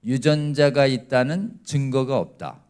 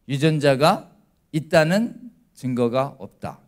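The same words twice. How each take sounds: First: Same slow deliberate line, leaning on 유전자가; slow repeat-after-me. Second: Each word laid down slowly and firmly, falling at 없다; slow careful statement. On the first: Preacher leading the congregation to repeat, slow and deliberate. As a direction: lead the room through 유전자가 있다는 증거가 없다 word by word. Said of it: "따라해볼까요?". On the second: Preacher modelling the correct scientific statement, slow and deliberate. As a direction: spell out 유전자가 있다는 증거가 없다 slowly, landing on 있다는. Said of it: "이렇게 얘기해야 과학적 진술이에요". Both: Shown as a demonstration.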